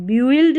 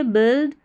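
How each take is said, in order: First: "बिल्ड" misread as byu-ild; "बिल्ड" in two parts, byu-ild; wrong pronunciation. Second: "बिल्ड" as one short syllable, bild; correct pronunciation. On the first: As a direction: say "बिल्ड" with the U sounded, "byuild". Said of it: "बिल्ड नहीं पढ़ेंगे". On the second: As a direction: say "बिल्ड" with a silent U. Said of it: "को बिल्ड पढ़ते हैं". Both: Shown as a demonstration.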